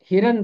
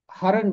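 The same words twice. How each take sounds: First: हिरन with a short i in the first syllable, hi-ran; pronounced hiran. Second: हरन with a short a in the first syllable, ha-ran; pronounced haran. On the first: Teacher giving the hiran pronunciation of deer. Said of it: "इसका तलफ़ुज़ हिरन भी है". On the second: Teacher giving the haran pronunciation of deer. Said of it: "हरन भी इसका तलफ़ुज़ है". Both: Shown as a demonstration.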